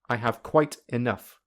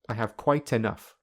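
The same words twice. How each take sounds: First: The words are said separately without linking. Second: The words are linked smoothly together. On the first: "firstly without linking" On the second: "secondly with linking"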